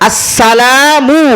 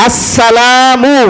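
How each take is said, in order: The two takes are said the same way.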